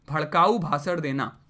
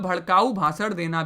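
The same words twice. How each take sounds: First: भड़काऊ leaned on, pitch dropping low; stress on भड़काऊ. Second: Said in the usual way. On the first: Shown as a demonstration. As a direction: lower voice, hit भड़काऊ then fall away.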